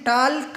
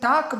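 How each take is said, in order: First: The l is sounded. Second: The l is silent. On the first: The speaker calls it wrong. "हम ये टाल्क नहीं बोलते" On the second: The speaker calls it right. "हम ये टाक बोलते हैं"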